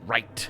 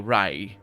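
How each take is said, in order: First: The final t is said strongly. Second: The final t sound is dropped. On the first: "you'd still have a very strong right. It's just like a very t at the end" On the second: "A Spanish speaking person will say "rai" and just drop the t at the end"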